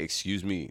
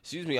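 First: The voice is calm, deeper and low in energy. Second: The voice is lively, higher and energetic. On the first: "I'm low energy at that moment. And my voice will be more deep" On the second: "I won't be like"

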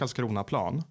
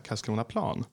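First: It is stressed as one single compound word. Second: Its parts are stressed as though separate words. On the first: "som ett ord borde betonas" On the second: "Man skulle säga Karlskronaplan"

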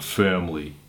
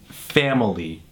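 First: The word is squeezed into two syllables. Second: The word is said with three full syllables. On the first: The speaker calls it wrong. "It's not family" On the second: The speaker calls it right. "It's a three-syllable word"

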